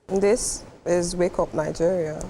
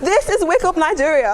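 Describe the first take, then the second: First: It sounds confused. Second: It sounds overdramatic.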